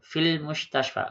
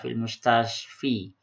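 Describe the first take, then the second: First: The last word ends in an 'a' vowel. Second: The last word ends in an 'i' vowel. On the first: The speaker calls it right. "Jadi dia tetap begitu" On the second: The speaker calls it wrong. "enggak bisa"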